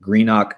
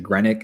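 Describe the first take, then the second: First: Greenock said as GREEN-ock, long ee and full ock; mispronounced Greenock. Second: Greenock said as GREN-ick, short e and ick ending; alternative pronunciation. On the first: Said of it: "I'm sure I'm saying it wrong". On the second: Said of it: "or something like that?". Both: Shown as a demonstration.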